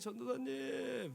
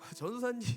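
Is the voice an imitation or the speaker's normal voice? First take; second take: imitation; normal. First: It is said in an imitated older man's voice. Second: It is said in the speaker's own normal voice. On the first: "말투가 이러세요. 근데 성대모사가 잘 이상했네요" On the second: "안 하겠습니다"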